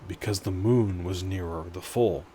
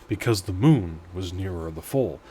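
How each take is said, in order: Both takes have the same delivery.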